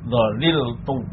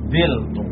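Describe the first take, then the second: First: Three syllables, with the middle syllable kept. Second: Two syllables, with an i vowel after dh. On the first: "Yang pertama itmam, artinya tetap tidak ada perubahan" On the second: "lam kalimahnya dibuang, kemudian harokat pada ain kalimah dioper ke pak kalimahnya"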